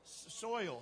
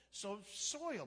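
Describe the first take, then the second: First: "soil" with a false start on s, then one clean syllable; careful soil. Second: "soil" said as s then oil, two beats; soil as s plus oil. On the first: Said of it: "How do you say it?". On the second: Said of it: "Just say oil and put an S in front of it". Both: Shown as a demonstration.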